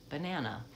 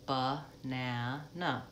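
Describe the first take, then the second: First: Said in the usual way. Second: Ba-na-na said slowly, syllable by syllable, with uh in the first and last syllables; slow syllable demo. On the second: Shown as a demonstration. Teacher spelling out banana slowly by syllables. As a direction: sound out ba-na-na one beat at a time, stress on the middle na. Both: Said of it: "the example of the word banana".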